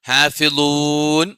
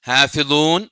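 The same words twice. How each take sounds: First: The final long vowel is held moderately long. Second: The final long vowel is held briefly. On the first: "നാല് ഹർക്കത്ത് ഓതാം" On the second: "രണ്ട് ഹർക്കത്ത് ഓതാം"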